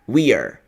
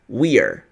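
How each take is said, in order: First: The two words merge into one short syllable. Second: The same.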